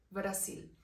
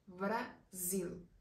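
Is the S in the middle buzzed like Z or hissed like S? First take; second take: hissed; buzzed. First: The middle S is a soft hissed S. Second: The middle S is a strong buzzed Z.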